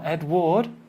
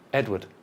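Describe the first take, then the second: First: The second syllable has a full vowel like ward. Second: The second syllable is reduced to a short schwa. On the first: The speaker calls it wrong. "Not Edward" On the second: The speaker calls it right. "Because the second syllable is?"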